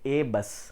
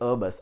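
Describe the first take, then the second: First: The article is a full, long "ay" sound. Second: The article is a short, reduced "uh" sound. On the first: The speaker calls it wrong. "వీ don't say" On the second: The speaker calls it right. "వి say"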